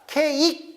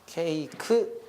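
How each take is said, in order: First: The final k closes the last syllable. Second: The final k gets its own vowel syllable. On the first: The speaker calls it wrong. "케익 끝내시면 안 되고" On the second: The speaker calls it right. "케이크까지 가주셔야 됩니다"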